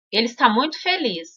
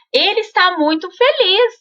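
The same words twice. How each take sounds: First: Mock-sad demonstration; sad, mismatched reading. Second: High, upbeat happy reading; cheerful, expressive demonstration. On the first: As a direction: say "muito feliz" glumly, softly and falling. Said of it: "né, triste". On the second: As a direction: exclaim "muito feliz" with rising joy. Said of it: "vocês vão perceber que ele está feliz". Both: Shown as a demonstration.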